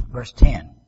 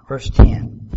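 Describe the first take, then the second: First: Hushed, breathy verse call; whispered aside; stage whisper. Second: Said in the usual way. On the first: Shown as a demonstration. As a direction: whisper the verse number to the room. Repeats verse number in a whisper.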